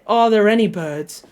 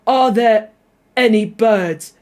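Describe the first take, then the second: First: ARE THERE ANY BIRDS run together with the R of THERE sounded into ANY; linking R. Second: ARE THERE ANY BIRDS with the R of THERE dropped and a break before ANY; glottal stop before ANY. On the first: Learner shows the easier way, THERE ANY joined by a linking R. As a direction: link THERE to ANY with an R, British style. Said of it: "you're going to say the R". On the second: Learner shows the awkward glottal stop way, ARE THERE ANY BIRDS broken after THERE. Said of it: "like, a glottal stop and be like". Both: Shown as a demonstration.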